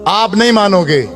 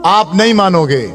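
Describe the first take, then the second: No difference in how they are said.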